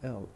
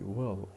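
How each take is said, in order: First: Only a short l sound is said. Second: The whole word is said with stress. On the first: The speaker calls it wrong. "We don't say L" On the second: The speaker calls it right. "We say will in full"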